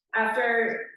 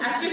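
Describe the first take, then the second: First: "After" in a Wisconsin accent, flat nasal a. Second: Said in the usual way. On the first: Real, not acted. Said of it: "my Wisconsin accent's coming out". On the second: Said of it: "sorry, my Wisconsin accent's coming out".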